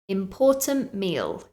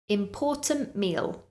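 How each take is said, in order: First: The t in important is dropped. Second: The same.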